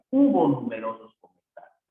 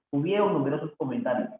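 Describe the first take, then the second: First: Emphatic "Hubo" at the front; stress on Hubo. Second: Said in the usual way. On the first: Shown as a demonstration. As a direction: hit "Hubo" firmly as the correction. Teacher stresses the corrected verb.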